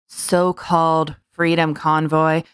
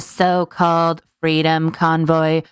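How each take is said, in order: First: It is said in the speaker's natural voice. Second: It is said in a put-on impression voice.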